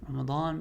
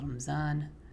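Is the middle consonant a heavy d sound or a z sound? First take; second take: heavy d; z. First: The middle consonant is a heavy d sound. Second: The middle consonant is a z sound. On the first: The speaker calls it right. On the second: The speaker calls it wrong.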